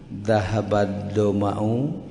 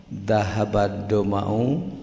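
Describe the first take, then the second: Both takes have the same delivery.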